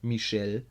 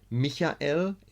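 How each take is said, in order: First: The name is pronounced the French way. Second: The name is pronounced the German way. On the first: "in French" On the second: "in German"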